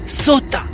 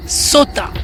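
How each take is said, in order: Both takes have the same delivery.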